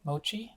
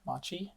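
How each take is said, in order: First: The first vowel sounds like 'oh'. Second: The first vowel sounds like 'ah'. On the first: The speaker calls it right. "So I'm Mochi" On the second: The speaker calls it wrong. "not Machi"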